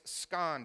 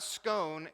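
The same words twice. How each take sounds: First: Scone said the Belfast way, rhyming with gone; right pronunciation. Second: Scone said the American way, rhyming with bone, slowly; wrong pronunciation. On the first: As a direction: say scone with a short o, as the correct version. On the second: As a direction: say scone with a long o, as the wrong version. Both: Shown as a demonstration. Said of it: "it's not scone, it's scone".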